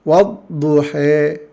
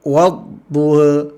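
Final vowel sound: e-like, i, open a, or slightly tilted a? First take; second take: e-like; slightly tilted a. First: The final vowel leans strongly toward an e sound. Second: The final vowel leans only slightly toward e. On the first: "Bacaan imalah" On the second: "Bacaan taklil"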